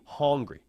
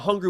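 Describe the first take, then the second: First: The first vowel is changed away from 'uh'. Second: The first vowel is the usual 'uh' sound. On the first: An extreme, desperate hunger. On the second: Ordinary hunger.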